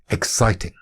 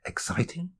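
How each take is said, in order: First: Said in the usual way. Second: "exciting" high and soft, rising into a question; "exciting" as a quiet, high, rising query. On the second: Acted. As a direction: lift "exciting" softly at the end, as if querying it. Same word turned into a question.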